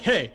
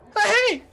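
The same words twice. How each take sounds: First: It is said in a deep, commanding voice. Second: It is said with the voice cracking.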